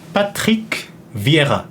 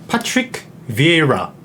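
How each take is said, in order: First: The name is said with a French accent. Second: The name is said with an English accent. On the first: "프랑스인이니까" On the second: "영국식 발음, 뭐 영어 발음으로 하면"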